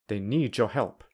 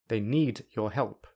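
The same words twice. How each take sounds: First: The d and your merge into j. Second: The d and your are kept separate. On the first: "I will use linking" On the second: "I will say them without linking"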